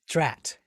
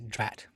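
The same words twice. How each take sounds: First: It is exclaimed loudly and sharply. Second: It is said flatly and drily.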